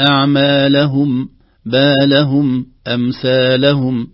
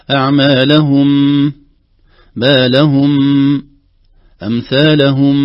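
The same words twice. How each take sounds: First: أعمالهم even, without stressing the هاء. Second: أعمالهم with an over-long humming ميم at the end; exaggerated nasal ring. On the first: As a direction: say بالهم and أمثالهم evenly, calmly. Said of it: "بدون أي نبرة". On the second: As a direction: hold the final ميم of أعمالهم far too long. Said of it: "نحذر من غنة زائدة". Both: Shown as a demonstration.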